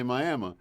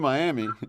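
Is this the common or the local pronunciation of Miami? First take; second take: local; common. First: It is said the local Oklahoma way. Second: It is said the common, Florida way. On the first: This is how locals say the name. The speaker calls it right. "they say Miami" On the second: This is how outsiders say the name. The speaker calls it wrong. "They don't say Miami"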